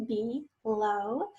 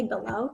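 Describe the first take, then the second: First: "below" syllable by syllable, rising at the end; two syllables. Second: Said in the usual way. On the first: Shown as a demonstration. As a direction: sound out "below" in two separate beats. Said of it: "two syllables". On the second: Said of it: "First say below".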